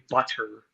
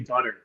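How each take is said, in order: First: The middle consonant is a crisp T sound. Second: The middle consonant is a soft D-like tap. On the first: This is how the speaker does not say it. "I don't say butter" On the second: This is how the speaker really says it. "I say butter"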